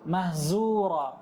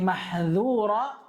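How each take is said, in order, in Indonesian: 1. Huruf konsonan di tengah itu adalah bunyi z yang ditebalkan. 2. Huruf konsonan di tengah itu adalah bunyi dh yang berat.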